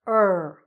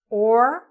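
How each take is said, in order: First: The word is reduced to 'er'. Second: The word is said fully as 'or'.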